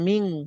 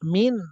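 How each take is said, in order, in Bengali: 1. এটা ধরে রাখা, নাসিক্য ng ধ্বনি দিয়ে শেষ হয়। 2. এটা ছোট, স্পষ্ট n ধ্বনি দিয়ে শেষ হয়। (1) "হ্যাঁ দাল আছে" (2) "তাহলে মিন না মিং"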